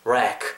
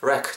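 First: The vowel is drawn out long. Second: The vowel is clipped short. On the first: The speaker calls it right. "좀 길게 째시면서 발음하시면" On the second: The speaker calls it wrong. "짧게 아시키지 말고"

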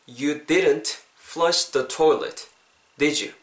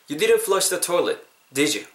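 First: It is said slowly. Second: It is said at natural speed.

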